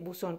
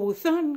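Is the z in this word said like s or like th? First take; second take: s; th. First: The z is said like English s. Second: The z is said like English th. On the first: This is how it is said in Latin America. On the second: This is how it is said in Spain. "como dicen en España"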